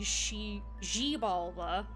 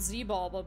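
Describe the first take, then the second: First: The name begins with an sh sound. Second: The name begins with a z sound. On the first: The speaker calls it right. "it's probably she G-Balba" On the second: The speaker calls it wrong. "I think I called it Z-Balba"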